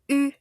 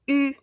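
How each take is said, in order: Both takes have the same delivery.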